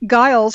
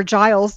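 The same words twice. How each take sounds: First: "Giles" starting with a hard G sound; hard-G pronunciation. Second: "Giles" starting with a J sound; soft-G pronunciation. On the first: Podcast host offering one reading of an author's name, hard-G "Giles". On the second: Podcast host offering the other reading of the name, soft-G "Giles". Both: Shown as a demonstration. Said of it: "depending on how you say it".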